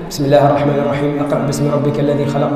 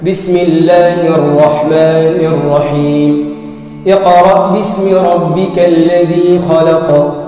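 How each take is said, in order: First: It is recited plainly, without careful articulation rules. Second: It is recited carefully, with lengthened and nasal sounds. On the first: The reader never learned proper recitation. The speaker calls it wrong. "مش يقرأها كما هكا" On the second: The reader learned recitation from a teacher. The speaker calls it right. "كما أنت تعلمته"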